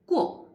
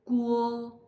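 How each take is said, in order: First: It is said with the fourth tone. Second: It is said with the first tone. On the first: "fourth tongue" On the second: "first sound sounds like Guo"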